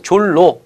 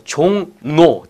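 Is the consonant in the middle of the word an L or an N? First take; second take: L; N. First: The middle consonants are both pronounced as L. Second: The middle consonant is pronounced as a nasal N. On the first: The speaker calls it wrong. "졸로 이렇게 읽으면 안 되니까" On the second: The speaker calls it right. "뒤에 거 비음이 돼야죠"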